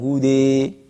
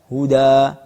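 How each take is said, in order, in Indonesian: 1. Vokal akhirnya sepenuhnya bergeser ke e. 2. Vokal akhirnya adalah a terbuka biasa. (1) "bukan hude. Karena ini adalah imalah kubro" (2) "huda sama kayak jumhur, wajah pertama"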